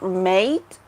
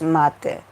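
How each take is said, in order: First: It is said like the English word mate. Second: It is said with the Argentinian pronunciation. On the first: The English word is meant. "It's like the word mate" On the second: The Argentinian drink is meant. "we pronounce it differently"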